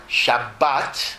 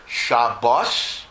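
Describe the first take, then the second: First: Shabbat slowly, stress on the last syllable, shab-BAT; Israeli Shabbat. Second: Shabbos, stress on the first syllable, SHAB-bos. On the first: Rabbi showing the modern Hebrew Shabbat, slow, final stress. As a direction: draw out Shabbat, landing on BAT. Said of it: "or Shabbat". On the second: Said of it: "pronounce it either Shabbos". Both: Shown as a demonstration.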